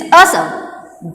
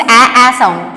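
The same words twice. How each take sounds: First: "a" said as the "uh" in "duck"; short U sound. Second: "a" said as the open vowel in "back"; short A sound. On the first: Teacher shows the odd vowel, "a" as "uh" in duck. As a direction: central "uh" for "a" in "a sound". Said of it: "This is a sound". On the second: Teacher shows the shared vowel, "a" as in back. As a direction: open front "a" in "a sound", as in sack. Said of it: "all this a, a sound". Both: Shown as a demonstration.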